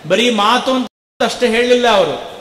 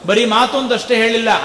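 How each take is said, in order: First: ಹೇಳಿಲ್ಲ leaned on with a falling close; first take, weight landing on ಹೇಳಿಲ್ಲ; measured preacher's emphasis on ಹೇಳಿಲ್ಲ; stress on ಹೇಳಿಲ್ಲ. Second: Quick repeat, ಮಾತು punched; fast insistent repeat with weight on ಮಾತು; stress on ಮಾತು. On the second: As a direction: rattle it off fast, hitting ಮಾತು. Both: Shown as a demonstration.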